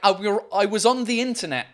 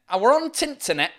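First: It is said with a standard accent, 'the' pronounced fully. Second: It is said with a Yorkshire accent, 'the' reduced.

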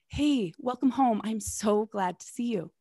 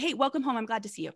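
First: It sounds warm and attentive. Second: It sounds distracted and inattentive.

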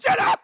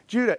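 First: The name is called out in a frantic shout. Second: The name is called casually and calmly.

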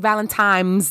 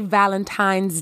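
First: It is said with an m sound: Valentimes. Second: It is said with an n sound: Valentines. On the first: The speaker calls it wrong. "It is not happy Valentine's Day as in time of the day" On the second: The speaker calls it right. "Valentine's Day does not have an M as in Mary"

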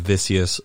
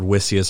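First: The name begins with a V sound. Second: The name begins with a W sound. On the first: "the W is pronounced as a V" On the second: "I've heard Wissius"

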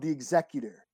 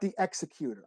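First: It is not said like the verb 'execute'. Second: It is said like the verb 'execute'. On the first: The speaker calls it right. "it's called the Executor" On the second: The speaker calls it wrong. "not the Executor"

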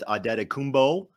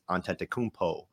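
First: The surname is given its Nigerian pronunciation. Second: The surname is given its Greek pronunciation. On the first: "I'm guessing that's the Nigerian way" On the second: "Greek way to say it"

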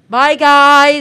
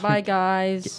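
First: It is said very loudly. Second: It is said at a moderate volume.

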